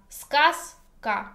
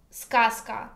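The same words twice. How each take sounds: First: "Сказка" split in two, з sounding as s; voiceless pronunciation. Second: Said in the usual way. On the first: Shown as a demonstration. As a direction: sound out "Сказка" as skas, pause, ka. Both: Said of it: "but pronounce ska".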